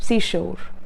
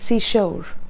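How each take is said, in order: First: It is said in a stylized foreign accent. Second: The same.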